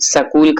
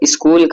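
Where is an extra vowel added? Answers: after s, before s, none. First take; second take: after s; none. First: A vowel is inserted between s and k. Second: The word starts directly with the sk cluster. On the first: The speaker calls it wrong. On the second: The speaker calls it right.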